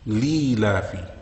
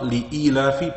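First: The word drops the hamza and ya sounds. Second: The word keeps the hamza and ya sounds. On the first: "reads it without the ya, without the hamza"

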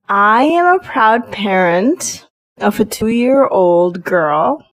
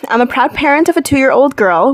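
First: The sentence is spoken very slowly. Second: The sentence is spoken at a quicker pace. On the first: "I shall slow down now" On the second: "let me try that again"

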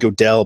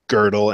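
First: The first vowel is a plain English o. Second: The first vowel is a rounded umlaut sound. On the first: The speaker calls it wrong. "I always call him Godel" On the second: The speaker calls it right. "but it's actually Godel"

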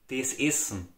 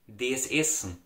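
Both takes have the same delivery.

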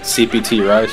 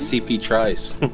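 First: The T sound ends the letters, then Rice. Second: The T sound joins the following word, Trice. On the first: This is the tag as its owner intends it. The speaker calls it right. "I've had that CPT Rice forever" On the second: This is how others misread the tag. The speaker calls it wrong. "Everybody always reads it as CP Trice"

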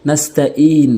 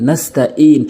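No difference in how they are said.

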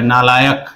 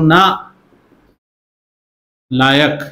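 First: It is said as one word without a break. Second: It is split with a break after na. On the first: The listener is called worthless. "सामर्थ इस word को ऐसे देख रहा है" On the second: The listener is called capable. "मैं बोल रहा हूं ना लायक, ओ केपेबल"

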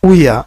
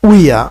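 Both takes have the same delivery.

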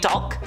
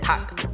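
First: The word is said with an L sound. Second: The word is said without an L sound. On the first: The speaker calls it wrong. "It's like dulk" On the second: The speaker calls it right. "you just pronounce it tuck without the L"

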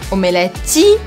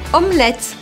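First: The middle and final e sounds are pronounced. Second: The middle and final e sounds are dropped. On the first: The speaker calls it wrong. "nada disso" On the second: The speaker calls it right. "Esse E no meio e o E do final desaparecem"

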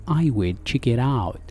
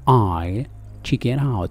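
First: 'I will' is said as two full words. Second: 'I will' is contracted to 'I'll'. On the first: "يعني يمكن أن نقول I will check it out" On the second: "هنا اختصار لي I will check it out"

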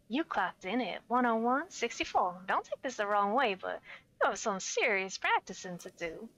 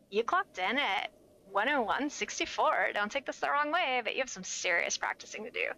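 First: It is said in a soft, smooth voice. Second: It is said in a put-on surfer voice.

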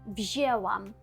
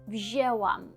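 No difference in how they are said.

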